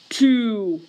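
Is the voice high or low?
low. It is said in a low, deep voice. It counts the denominator, which sits at the bottom. "I'm going to count my swoops in a low voice"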